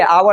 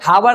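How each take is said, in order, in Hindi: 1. यह शब्द स्वर से शुरू होता है, h मौन है। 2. इस शब्द की शुरुआत में साफ़ सुनाई देने वाली h ध्वनि है। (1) "क्या चाहिए आवर है" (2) "हावर नहीं है"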